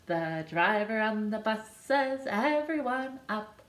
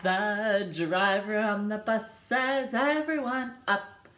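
The two takes are said the same way.

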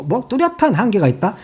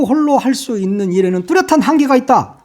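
First: Mocking echo. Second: Said in the usual way. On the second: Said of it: "그러면서 뭐".

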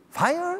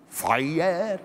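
First: "Fire?" squeaked very high with a rising end; "Fire?" as a high, baffled rising question; puzzled question. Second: Said in the usual way. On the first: A narrator's reading. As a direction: ask "Fire?" far up in the voice, lifting at the end. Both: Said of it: "kérdezte valamennyi".

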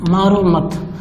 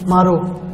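First: मारो मत run together, then a short break; मारो मत as one phrase, pause following; pause after मत. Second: मारो said alone, then a long pause; मारो cut off from what follows by a clear pause; pause after मारो. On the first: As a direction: put the comma break after मत, none after मारो. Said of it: "कामा का फर्क देखिए". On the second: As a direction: put the comma break straight after मारो. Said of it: "यहाँ कामा लगा दिया तो". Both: Shown as a demonstration.

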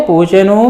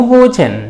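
First: పూచెను ending on a voiced u; full final ను. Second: పూచెన్ closed on a bare n; పూచెన్ with no vowel after n; vowelless final n. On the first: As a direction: say the whole ను in పూచెను. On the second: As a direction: drop the u, end పూచెన్ on n. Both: Shown as a demonstration. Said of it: "ఎట్లా ఉన్నా పర్వాలేదు".

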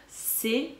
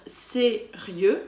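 First: Sérieux with ri and eux split apart; diaeresis on sérieux. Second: Said in the usual way. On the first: Shown as a demonstration. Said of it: "on va devoir lire sérieux". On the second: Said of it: "au lieu de lire sérieux, comme on le ferait naturellement".

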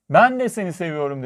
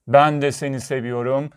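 First: Put-on lightly raised, happy child's call; little girl calling. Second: Mountain echo. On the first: Pleased little girl calls to the mountain, lightly raised call. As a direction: call it out with a small lift. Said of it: "Karşıki dağa döndü". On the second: Mountain answers the little girl, lightly echoing reply. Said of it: "Karşıki dağdan cevap geldi". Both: A narrator's reading.

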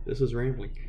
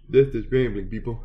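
First: Said in the usual way. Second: This is rambling, said louder with a falling end; louder announcement. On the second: Shown as a demonstration. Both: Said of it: "This is how you ramble".

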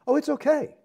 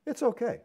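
First: High, sneering put-on voice; sing-song mock of a smug excuse. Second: Mocking, higher and lightly sneering; mock-casual shrug in the voice; mocking quote. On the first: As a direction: parody a dismissive believer. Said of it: "They're still saying that". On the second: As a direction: mimic a smug excuse. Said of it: "He says".

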